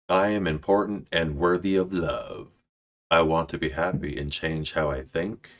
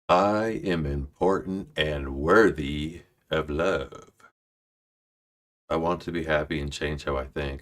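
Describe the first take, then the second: First: It is read fast. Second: It is read at a normal pace.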